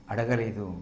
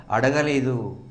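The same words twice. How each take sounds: First: Softer, dropped echo of అడగలేదు. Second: Said in the usual way. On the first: Shown as a demonstration. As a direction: let అడగలేదు fall away softly. Softer echo of previous line. (మెల్లగా అడగలేదు)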